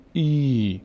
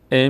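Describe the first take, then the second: First: ای drawn out into a long "eee"; stretched ee vowel. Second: ا as a plain short "e"; short e vowel. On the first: Teacher showing how kasre stretches, long "ee" on ای. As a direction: stretch ای slowly as one long ee. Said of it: "کش میاد". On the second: Teacher showing the sound before it stretches, short "e" on ا. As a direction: say ا as a brief e. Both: Shown as a demonstration.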